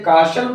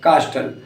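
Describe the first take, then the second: First: The t sound is silent. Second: The t sound is pronounced. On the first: The speaker calls it right. "हम इसे काशल पढ़ते हैं" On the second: The speaker calls it wrong. "न कि कास्टल"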